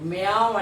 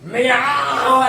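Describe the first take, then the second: First: The meow is said softly and weakly. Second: The meow is said loudly and forcefully. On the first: The speaker calls it wrong. "నువ్వేమంటున్నావు? మ్యావ్ అంటున్నావు. అలా అనకూడదు" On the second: The speaker calls it right. "గట్టిగా గట్టిగా మ్యావ్ అనాల, అలా అనాలి"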